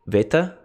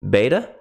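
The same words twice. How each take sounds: First: The word begins with a v sound. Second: The word begins with a b sound.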